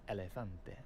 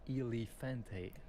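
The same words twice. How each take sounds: First: The E vowels sound soft, like 'eh'. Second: The E vowels sound hard, not Spanish-like. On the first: The speaker calls it right. "but it's elefante. ... So soft E" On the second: The speaker calls it wrong. "what a lot of foreigners do ... they will pronounce this word here as elefante"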